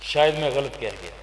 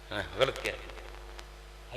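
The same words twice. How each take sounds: First: Said in the usual way. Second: Much softer, slow self-correction under the breath; preacher quietly correcting himself mid-story; soft slow aside. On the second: Shown as a demonstration. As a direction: drop to a hushed, drawn-out ہاں، غلط کہہ گیا.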